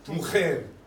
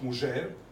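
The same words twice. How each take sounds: First: The j is a harsh throat sound. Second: The j sounds like English j. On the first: This is the modern Spanish pronunciation. "in modern Spanish, they say mujer" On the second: This is the original medieval pronunciation. "and not mujer"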